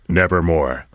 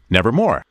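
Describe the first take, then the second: First: It is said in a lower, raven-like voice. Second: It is said in a higher, crow-like voice.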